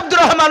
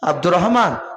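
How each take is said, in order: First: The name is called out loudly and sharply. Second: The name is called quietly and gently. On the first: It startles a sleeping person awake. The speaker calls it wrong. "চিৎকার করে ডাকলে" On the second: It wakes a sleeping person calmly. The speaker calls it right. "আস্তে করে ডাকুন"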